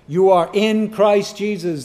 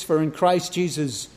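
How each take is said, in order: First: Emphatic "in", driven home; stress on IN. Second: Said in the usual way. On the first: Retold or imitated. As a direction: hit the word "in" before Christ Jesus. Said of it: "There's that emphasis".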